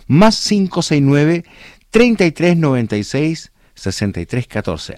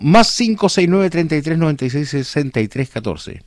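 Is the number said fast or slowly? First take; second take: slowly; fast. First: The number is said slowly. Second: The number is said fast.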